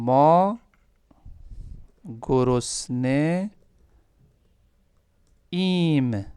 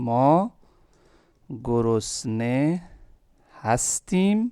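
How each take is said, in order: First: The verb is reduced to just 'im'. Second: The verb is said in full as 'hastim'. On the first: "short form कर दें इसको।" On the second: "बिल्कुल सही है।"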